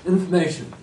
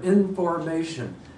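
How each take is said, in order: First: The word is slurred, with syllables run together. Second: The word is said slowly, every syllable distinct. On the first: The speaker calls it wrong. "the word information came out in" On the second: The speaker calls it right. "So just practice in front of a mirror"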